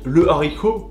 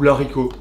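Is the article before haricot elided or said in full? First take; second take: full; elided. First: The article is said in full before the word. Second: The article is elided and joined to the word. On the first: The speaker calls it right. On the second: The speaker calls it wrong.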